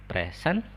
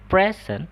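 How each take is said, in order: First: The stress is on the second syllable. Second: The stress is on the first syllable. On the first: It means to attend. "present itu artinya dia itu sebagai kata kerja ya, hadir" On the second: It means a gift. "kalau bilangnya present itu artinya dia hadiah"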